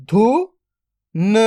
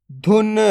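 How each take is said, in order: First: "धुन" split into धु, then न, very slow; drawn-out breakdown of "धुन"; sound by sound. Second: Said in the usual way. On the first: Shown as a demonstration. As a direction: sound out धु ... न with a long gap. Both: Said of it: "तो मिलके बन जाएगा".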